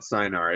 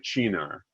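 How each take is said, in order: First: The word begins with an 's' sound. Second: The word begins with a 'ch' sound. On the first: The speaker calls it wrong. "It is not cynar" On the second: The speaker calls it right. "the Italians will say Chinar"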